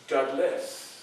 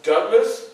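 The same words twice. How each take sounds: First: The name ends with a drawn-out s sound. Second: The name ends with a short s sound. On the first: This is the spelling with an added s. "I just added another S" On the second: This is the actor's spelling with one s. "spelled D O U G L A S"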